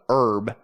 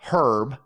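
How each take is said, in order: First: The h at the start is silent. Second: The h at the start is pronounced. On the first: "in America we call it herb" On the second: "in Britain it's herb, which well, is the way it's spelled"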